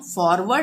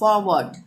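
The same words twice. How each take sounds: First: The r sound is pronounced before the consonant. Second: The r sound is silent before the consonant. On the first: The speaker calls it wrong. "फॉरवर्ड नहीं पढ़ेंगे" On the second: The speaker calls it right. "सही pronunciation होगा"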